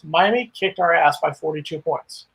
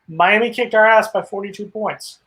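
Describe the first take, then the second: First: The sentence is said at ordinary volume. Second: The sentence is said noticeably louder.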